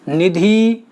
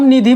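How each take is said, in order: First: The final vowel is long. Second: The final vowel is short. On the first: This is the Khadi Boli form. "यहां बड़ी का मात्रा आ गया" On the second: This is the everyday form. "ये छोटी का मात्रा लगा है"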